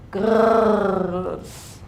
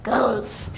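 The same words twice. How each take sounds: First: The word is said in a calm, neutral way. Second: The word is said in an angry, growling way. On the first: "if you put the G and the E L S, then it's like" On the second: "if you are like angry at all the things you just said, you could be like girls"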